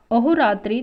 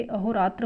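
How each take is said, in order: First: अहोरात्रि ending in "tri"; wrong form. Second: अहोरात्र ending in "tra"; correct form. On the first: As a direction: say अहोरात्रि loudly with a final i. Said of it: "अशुद्ध है". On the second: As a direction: say अहोरात्र with no final i. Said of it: "ये शुद्ध है". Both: Shown as a demonstration.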